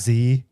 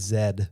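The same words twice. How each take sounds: First: The letter is said the American way, as zee. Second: The letter is said the Canadian way, as zed.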